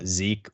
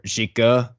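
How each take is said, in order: First: The name is said as one short syllable. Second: The name is said with two syllables.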